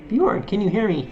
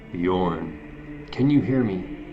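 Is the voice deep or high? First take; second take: high; deep. First: It is said in a higher, feminine voice. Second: It is said in a deep voice. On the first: The speaker calls it right. "This is a lady" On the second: The speaker calls it wrong. "shouldn't have a deep voice"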